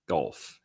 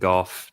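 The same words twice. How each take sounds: First: The word is said with an L sound. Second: The word is said without an L sound.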